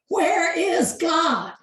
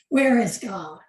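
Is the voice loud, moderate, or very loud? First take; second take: loud; moderate. First: It is said louder and more sternly. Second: It is said sternly at moderate loudness.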